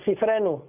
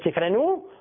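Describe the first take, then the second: First: The stress is on the penultimate syllable. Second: The stress is on the final syllable. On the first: The speaker calls it right. "זה ספרנו מלעל" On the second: The speaker calls it wrong. "היה צריך להיות ספרנו, לא"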